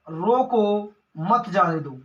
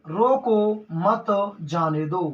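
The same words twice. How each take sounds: First: Slow, drawn रोको, break, मत जाने दो together; pause after रोको. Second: Very slow रोको मत, break, then जाने दो; pause after मत. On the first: Teacher giving next example, pause after रोको. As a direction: set रोको apart from मत जाने दो. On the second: Teacher twisting the example, pause after मत. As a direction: attach मत to रोको, set जाने दो apart. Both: Shown as a demonstration. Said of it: "अब क्या होगा भैया".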